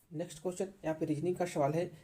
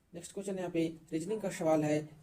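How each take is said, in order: Both takes have the same delivery.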